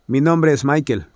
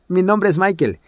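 First: It is read in a plain adult voice. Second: It is spoken in a put-on child's voice. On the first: "Normalmente se leería" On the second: "creerme que yo soy un niño de once años"

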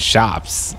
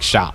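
First: The final s sound is pronounced. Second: The final s sound is dropped. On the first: "instead of saying shops" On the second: "I would be like shop"

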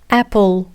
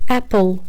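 No difference in how they are said.

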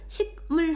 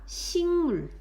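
First: The first syllable ends in a stop sound. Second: The first syllable ends in a nasal sound. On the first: The speaker calls it wrong. "식물 하지 않고" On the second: The speaker calls it right. "기역이 이응으로 바뀌었어"

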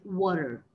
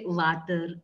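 First: The W is said with rounded lips. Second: The W is said without lip rounding. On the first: The speaker calls it right. "that is rounded" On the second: The speaker calls it wrong. "that's the typical way South Indians say sometimes"

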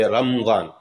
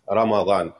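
First: There is no vowel right after the m. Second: There is a short a vowel after the m. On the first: The speaker calls it wrong. "they make a sukoon on the meme. They say Ramadan. And that's not the correct pronunciation" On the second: The speaker calls it right. "actually is with the fatha. It's Ramadan"

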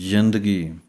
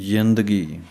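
Both takes have the same delivery.

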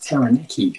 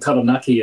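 First: The name is said with anglicized pronunciation. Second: The name is said with Māori pronunciation. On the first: The speaker calls it wrong. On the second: The speaker calls it right.

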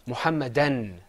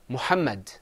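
First: The word ends with an added n sound. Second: The word ends on the d sound. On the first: "With tanween, it's Muhammadan" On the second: "Without tanween, it's Muhammad"

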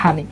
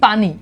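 First: The word begins with an h sound. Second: The word begins with a p sound. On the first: This is the Noakhali regional way of saying it. "নোয়াখালীতে বলে থাকে হানি" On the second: This is the standard way of saying it. "আমরা আমরা বলে থাকি পানি"

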